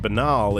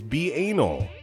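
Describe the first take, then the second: First: The word is said in its usual form. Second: The word is said as 'be-anal'. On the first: The speaker calls it right. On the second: The speaker calls it wrong.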